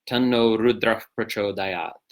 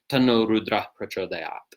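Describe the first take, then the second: First: Rudra ends with a breathy F-like sound. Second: Rudra ends plainly, without an F-like sound. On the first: It is recited in the Vedic style. "if you were reciting this mantra in a Vedic context" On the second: It is recited in the tantric style. "tantric context, let's say you say"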